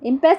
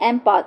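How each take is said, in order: First: The word is said like im-pess. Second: The word is said like em-pahs.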